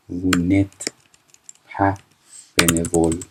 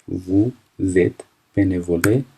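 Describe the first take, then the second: First: وو نت said without the z sound, then بنوول; no liaison after ne. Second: Slow, with the z of زت linked into بنوله; French liaison shown. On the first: Teacher contrasting the negative form without liaison. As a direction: drop the s and link only the n. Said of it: "این اس دیگه خونده نمیشه". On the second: Teacher showing the liaison before a vowel. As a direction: carry the liaison sound slowly. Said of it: "وو زد وقتی هستش". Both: Shown as a demonstration.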